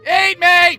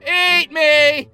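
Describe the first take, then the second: First: It is said loudly, with enthusiasm. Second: It is said quietly, without enthusiasm.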